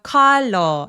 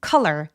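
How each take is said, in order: First: The first vowel is drawn out long. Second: The first vowel is short and quick. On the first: The speaker calls it wrong. "이렇게 길게 표현하지 않습니다" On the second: The speaker calls it right. "단모음으로 빠르고 뾰족하게"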